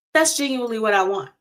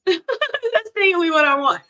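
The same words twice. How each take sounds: First: Said in the usual way. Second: Higher, laughing through the words; giggly high repeat of the confession. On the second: Real, not acted. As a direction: say it again, cracking up.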